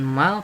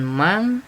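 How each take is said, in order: First: The word ends in an l sound. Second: The word ends in an ng sound. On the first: "bukan mal" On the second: "bukan mang"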